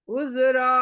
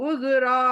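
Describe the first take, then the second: The two takes are said the same way.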